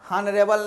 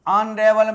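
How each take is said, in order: First: The word starts with an h sound. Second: The word starts without an h sound. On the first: The speaker calls it wrong. "अनरेबल नहीं होता" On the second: The speaker calls it right. "अनरेबल में H silent है"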